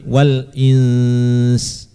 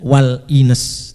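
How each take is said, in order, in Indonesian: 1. n-nya ditahan dengan dengung hidung. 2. n-nya pendek, tanpa dengung hidung. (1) "tapi wal ins ... harus ada dengungnya"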